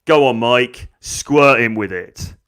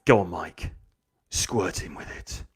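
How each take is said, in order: First: Put-on loud, goading girl; egging on. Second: Low, hushed goading; sinister egging on. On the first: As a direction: urge the bully on, drawing out the end. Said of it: "she goes". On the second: Acted. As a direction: urge the bully on in a low, secretive voice. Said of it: "she's like".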